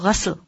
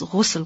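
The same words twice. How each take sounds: First: The first vowel is an 'a' sound. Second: The first vowel is a 'u' sound. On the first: "also pronounced with a fatha on ghain" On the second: "When the word is ghusl, with a dhamma on, ghain"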